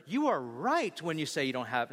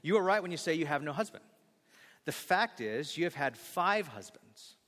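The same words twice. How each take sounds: First: A sassy, pointed delivery; mock sassy Jesus line; snappy, sassy reading of the line. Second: Gentle and kind; tender, gentle correction. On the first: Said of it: "no, he didn't say it in that tone". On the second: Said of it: "he's so gentle with her". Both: Shown as a demonstration.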